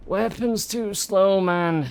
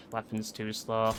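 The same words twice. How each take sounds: First: Higher, slow, stretched complaint; slow, exasperated moan at the game; drawn-out whine. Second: Softer, low muttered complaint; said low, mostly to himself; quiet grumble. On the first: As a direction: whine it out, dragging each word. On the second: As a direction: grumble it under your breath. Muttered complaint, then repeated. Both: Real, not acted.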